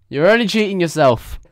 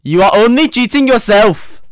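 First: Said in the usual way. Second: "You are only cheating yourself" in a hammed-up Indian accent, high and loud. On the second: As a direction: imitate the Indian math teacher scolding. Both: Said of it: "I will do You Are Only Cheating Yourself in an Indian accent".

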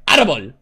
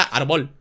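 First: "árbol" with the stress on ÁR; stress on first syllable. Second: "árbol" mis-stressed as ar-BOL; stress on last syllable. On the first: Host reminds players of the tilde, "árbol" stressed on the first syllable. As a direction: say "árbol" leaning on the accented first A. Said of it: "árbol lleva tilde en la A". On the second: Host shows it without a tilde, "árbol" stressed on the final syllable. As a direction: say "árbol" as if unaccented, hitting BOL. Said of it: "Si no dijera árbol". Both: Shown as a demonstration.

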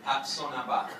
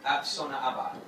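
First: "Ap Sona Ba" retried with a laugh, syllables run together; laughing retry. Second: Careful Gujarati "Ap Sona Aba", each syllable spaced; Gujarati phrase. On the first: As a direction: laugh through the second try at "Ap Sona Ba". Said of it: "Which actually means, so". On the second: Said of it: "I'm sorry about this". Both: Real, not acted.

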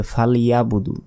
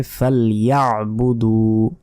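First: ফালইয়াবুদু quickly as "fal-yabudu"; no throat catch after "ya"; wrong, missing ain. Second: ফালইয়াবুদু as a slow "fal-ya'-buduu"; drawn-out last vowel of ফালইয়াবুদু; correct throaty ain. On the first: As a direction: flatten ফালইয়াবুদু into plain short syllables. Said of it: "আইনের উচ্চারণই করলাম না". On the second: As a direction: squeeze the ain in the throat after "ya". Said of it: "সঠিক উচ্চারণটি হচ্ছে". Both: Shown as a demonstration.

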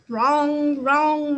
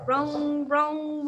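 First: Loud, ringing piano notes; loud imitation of a crashing piano; loud piano clang. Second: Said in the usual way. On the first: A narrator's reading. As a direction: bang them out like struck keys. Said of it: "wrong went the piano". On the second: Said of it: "rung went the piano".

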